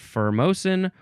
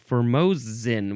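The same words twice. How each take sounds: First: The middle consonant is an S sound. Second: The middle consonant is a Z sound.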